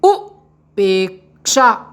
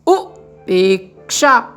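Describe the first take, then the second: Both takes have the same delivery.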